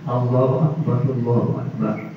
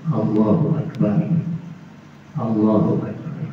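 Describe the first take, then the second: First: The two phrases run together without a pause. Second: The two phrases are separated by a pause. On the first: The speaker calls it wrong. "menyambung kalimat itu" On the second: The speaker calls it right. "tidak menyambungnya"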